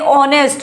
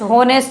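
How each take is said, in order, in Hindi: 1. यह शब्द स्वर से शुरू होता है, h ध्वनि नहीं है। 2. यह शब्द सुनाई देने वाली h ध्वनि से शुरू होता है। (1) "हम इसको कहेंगे ऑनेस्ट" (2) "होनेस्ट नहीं कहेंगे"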